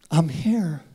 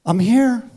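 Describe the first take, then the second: First: Said in the usual way. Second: Louder, higher I'm here; answering God loudly. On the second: Acted. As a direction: call back I'm here strongly. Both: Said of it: "what we just sang".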